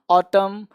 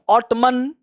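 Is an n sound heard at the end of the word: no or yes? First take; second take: no; yes. First: The word ends with no n sound. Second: The word ends with an audible n sound. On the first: The speaker calls it right. "एन चुप रहेगा" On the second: The speaker calls it wrong. "ऑटमन नहीं"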